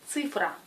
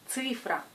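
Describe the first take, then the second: The two takes are said the same way.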